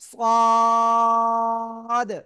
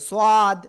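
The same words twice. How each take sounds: First: The vowel is stretched out long. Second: The vowel is held only briefly. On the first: The speaker calls it right. "না, ... চার আলিফ টান হবে" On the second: The speaker calls it wrong. "অনেকে আবার এরকম উচ্চারণ করে"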